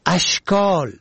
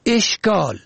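First: اشکال with opening "a", "ashkol"; first vowel fatha. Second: اشکال with opening "e", "eshkol"; first vowel kasra. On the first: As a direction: say اشکال as ash-KOL. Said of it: "به فتح اول". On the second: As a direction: say اشکال as esh-KOL. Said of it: "به کسر اول". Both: Shown as a demonstration.

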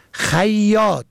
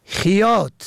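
First: خیاط said "khayyat"; فتحه on first letter. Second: خیاط said "khiyat"; کسره on first letter. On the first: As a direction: say خیاط with a after kh and a doubled y. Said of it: "به فتح اول". (خیاط با فتحهٔ خ: خَیّاط) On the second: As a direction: say خیاط with i after kh. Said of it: "به کسر اول". (خیاط با کسرهٔ خ: خِیاط) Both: Shown as a demonstration.

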